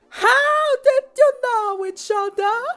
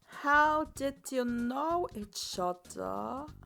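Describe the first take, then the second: First: It is said loudly, as a shout. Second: It is said at a normal volume.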